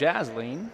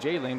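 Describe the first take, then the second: First: The name has an s sound before the l. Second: The name has no s sound before the l. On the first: The speaker calls it right. "but it's Jasleen" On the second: The speaker calls it wrong. "I've been saying Jaylene"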